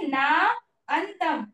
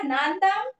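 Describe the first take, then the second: First: The two words are said separately. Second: The two words are merged into one. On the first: "इसको जैसे पढ़ेंगे ना अंतम" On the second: "मिलके हो गया नांतम"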